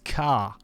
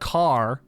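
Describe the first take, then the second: First: The final R sound is dropped. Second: The final R sound is clearly pronounced. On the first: "in Boston they don't pronounce their R's all that much" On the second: "instead of car"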